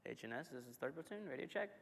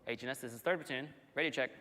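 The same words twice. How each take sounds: First: Softer, unsure repeat; unanswered radio call. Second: Crackly military radio. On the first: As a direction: call again, doubting, pitch rising. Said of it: "What you didn't want to happen was". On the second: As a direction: call it in over the radio. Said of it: "What you didn't want to happen". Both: Retold or imitated.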